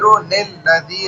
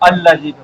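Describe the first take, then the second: First: It is joined on with a linking 'n' sound. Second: It starts fresh with a glottal 'a' sound. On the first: It is read joined to the previous word. "पीछे से मिलाकर पढ़ेंगे ना तो नून नाम से नील होगा" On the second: It is read after stopping at the previous word. "आगे अलग पढ़ना चाहते हैं तो अल्लजी अल्लजी सही"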